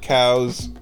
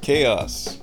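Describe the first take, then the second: First: The word is said as one syllable. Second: The word is said with two syllables. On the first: The speaker calls it wrong. "not cows" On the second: The speaker calls it right. "The word chaos is pronounced chaos"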